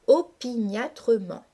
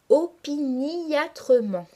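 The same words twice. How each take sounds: First: The word is said in five syllables. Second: The word is said in six syllables. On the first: "se prononce classiquement en cinq syllabes" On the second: "marquer la diérèse et prononcer une syllabe supplémentaire"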